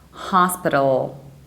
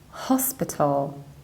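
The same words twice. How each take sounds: First: It is said in an American accent. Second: It is said in a British accent. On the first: "But in American accent, you should say hospital" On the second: "in the British accent, you stress the very first syllable"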